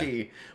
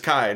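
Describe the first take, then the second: First: The vowel sounds like 'ee', rhyming with 'see'. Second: The vowel sounds like 'eye', rhyming with 'sky'. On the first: The speaker calls it wrong. "not yeah. Ki" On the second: The speaker calls it right. "that's how you pronounce that Greek letter is Kai"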